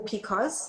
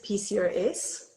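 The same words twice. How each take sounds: First: P C O S said as two syllables, pee-coz; P C O S as a word. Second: P C O S as four separate letters, pee-see-oh-ess; P C O S spelled out. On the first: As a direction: run C O S together as "coz" in P C O S. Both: Shown as a demonstration. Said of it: "different people pronounce it differently".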